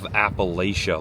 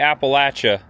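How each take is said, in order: First: It uses the northern regional pronunciation. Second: It uses the southern regional pronunciation. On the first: The speaker is from north of the Mason-Dixon line. "If you're from above the Mason-Dixon line, you probably call it" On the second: The speaker is from south of the Mason-Dixon line. "if you don't say Appalachia, people below the Mason-Dixon line will throw an apple at you"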